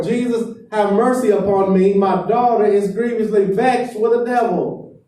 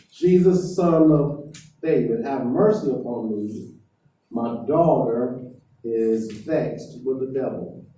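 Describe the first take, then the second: First: Loud, high desperate cry for mercy; yelling even more. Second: Retelling a desperate plea, only half raised; woman crying out. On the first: Canaanite woman yelling louder at silent Jesus, high loud cry. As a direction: shout the plea, pitched well up. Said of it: "she yells out even more". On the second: Canaanite woman begging Jesus for mercy, mild mock cry. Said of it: "she's yelling at the top of her lungs". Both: Retold or imitated.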